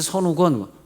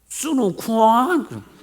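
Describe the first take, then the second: First: The name is said with Korean pronunciation. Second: The name is said with American pronunciation. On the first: This is how the name really sounds. The speaker calls it right. "마이 이름 선우건" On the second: Americans cannot say the name properly. The speaker calls it wrong. "얘네들 무식해. 내 이름도 제대로 몰라"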